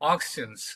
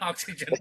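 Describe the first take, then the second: First: The word is pronounced the French way. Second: The word is pronounced like English oxygen. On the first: This is the name's original form. "It's a French word which says we the people" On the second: This is how most people say the name. "But everyone pronounce it as oxygen"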